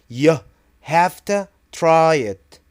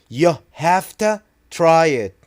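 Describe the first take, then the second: The two takes are said the same way.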